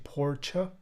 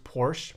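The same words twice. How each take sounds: First: It is said the non-American way. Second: It is said the American way. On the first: The speaker calls it right. "but it's actually Porsche" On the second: The speaker calls it wrong. "how the U S pronounces Porsche"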